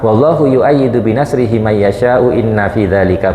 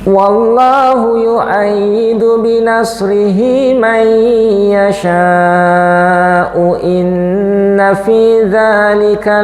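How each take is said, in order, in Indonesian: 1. Dibaca datar, dengan vokal pendek biasa. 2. Dibaca dengan vokal panjang yang jelas dipanjangkan. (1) "Lempeng seperti membaca koran" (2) "Karena ini mat wajib, gak boleh ditawar-tawar"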